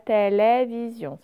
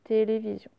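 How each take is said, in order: First: The e vowels are open, like è. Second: The e vowels are closed, like é. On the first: The speaker calls it wrong. "C'est pas télévision" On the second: The speaker calls it right. "ce ne sont que des sons et aussi"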